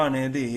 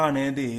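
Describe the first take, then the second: Both takes have the same delivery.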